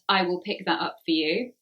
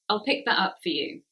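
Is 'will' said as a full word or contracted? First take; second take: full; contracted. First: I and will are said as separate words. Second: I and will are merged into one syllable. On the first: The speaker calls it wrong. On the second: The speaker calls it right. "We say that so quickly"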